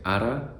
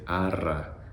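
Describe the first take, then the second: First: The r is a short single tap. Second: The r is a rolled trill with more air. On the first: The speaker calls it wrong. "Instead of saying ara" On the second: The speaker calls it right. "you're now trying to say arra, arra, let out more air"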